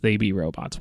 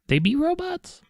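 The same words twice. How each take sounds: First: The voice falls flatly at the end. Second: The voice rises at the end like a question. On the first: It is stated as a plain claim. The speaker calls it wrong. "you don't get the right inflection, and it's just" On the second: It is asked as a question. The speaker calls it right. "Get that question mark in there"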